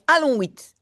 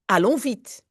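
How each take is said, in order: First: It is roared angrily, like a lion. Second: It is said calmly, in a normal voice.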